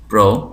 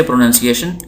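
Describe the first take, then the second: First: प्रोनाउंसिएशन in four separate pieces, pro - nan - siye - shan; long pauses between the chunks of प्रोनाउंसिएशन; broken into syllables. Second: Said in the usual way. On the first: Shown as a demonstration. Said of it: "इसके हम कितने टुकड़े कर सकते हैं". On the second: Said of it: "ये लफ्ज़ है".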